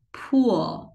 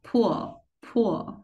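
First: Pool drawn out with a rounded u; long rounded u. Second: Pool said short like pull. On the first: Teacher contrasting long pool with short pull. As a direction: stretch pool slowly. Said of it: "Bên đây sẽ là". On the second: Teacher contrasting the short-vowel version. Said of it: "Còn ở đây là". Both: Shown as a demonstration.

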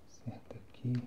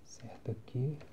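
The two takes are said the same way.

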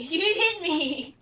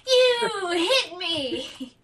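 First: Laughing. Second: Slow laughing whine. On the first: Repeats complaint laughing slowly. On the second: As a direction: stretch it out through laughter. Third take, laughing crying slow. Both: Real, not acted.

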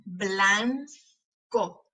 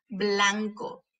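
First: "Blanco" slowly as blan, pause, co; split into syllables. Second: Said in the usual way. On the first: Shown as a demonstration. Teacher showing the tongue closing, syllable by syllable. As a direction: separate the two syllables of "Blanco". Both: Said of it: "para ver cuáles de esas sílabas".

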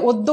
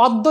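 First: অদ্য as "oddo"; closed "o" starting অদ্য; correct spoken vowel. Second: অদ্য as "awddo"; as-written vowel. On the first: Teacher models pronunciation, অদ্য with closed "o". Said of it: "উচ্চারণ করেছি". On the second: Teacher reads the spelling, অদ্য with open "aw". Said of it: "লিখে". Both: Shown as a demonstration.

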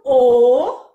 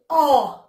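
First: The vowel O said closed, as in "fogo", lips rounded and tight. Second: The vowel O said open, as in "fogos", mouth wider. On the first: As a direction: hold a short closed O, loud. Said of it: "Timbre fechado". (O fechado, como em "fogo") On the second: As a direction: sound an open O, loud. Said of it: "Timbre aberto". (O aberto, como em "fogos") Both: Shown as a demonstration.

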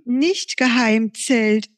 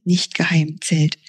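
First: Slow, deliberate "nicht-geheim-Zelt", higher; correcting herself. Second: Said in the usual way. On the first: Acted. Momo corrects herself to Pfiffi, slow "nicht-geheim-Zelt".

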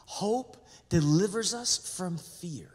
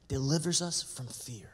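First: "delivers" leaned on slowly; slow, stressed repeat. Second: Whispered. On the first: Pastor repeating the key line to the church, slow and weighty. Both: Shown as a demonstration.

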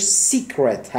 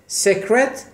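First: سیکرت said "SEE-kret"; long "ee" in the first syllable of سیکرت; secret with ee. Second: سکرت said "sek-ret"; short "e" in the first syllable of سکرت; secret with short e. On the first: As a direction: pronounce سیکرت as "seek-ret". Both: Shown as a demonstration. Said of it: "البته تلفظش سیکرت هست".

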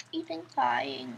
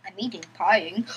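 First: Said in the usual way. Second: Giggling through the words; quick, giggly repeat; laughing, playful. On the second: Shown as a demonstration.

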